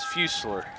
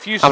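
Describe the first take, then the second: First: The name is said with an English pronunciation. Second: The name is said with a French pronunciation. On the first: The speaker calls it right. "but it's Fuselier" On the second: The speaker calls it wrong. "I was trying to get fancy and go French with it"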